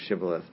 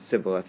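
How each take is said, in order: First: The word begins with an SH sound. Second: The word begins with a plain S sound. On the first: The speaker is from the local group. The speaker calls it right. "the Gileadites pronounce it as a shin" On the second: The speaker cannot make the other sound. The speaker calls it wrong. "the Ephraimites pronounce it as a sin"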